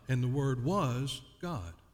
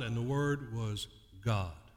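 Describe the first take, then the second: First: The stress falls on the word was. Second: The stress falls on the word God. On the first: The speaker calls it wrong. "we read it this way" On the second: The speaker calls it right. "Put the emphasis on the word "God" instead of "was.""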